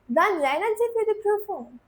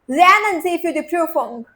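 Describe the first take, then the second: First: It is said in a friendly advising tone. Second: It is said in a stern commanding tone.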